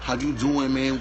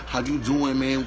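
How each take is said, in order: First: It is said in a masculine, straight-guy voice. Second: The same.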